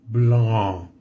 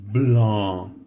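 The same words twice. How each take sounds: The two takes are said the same way.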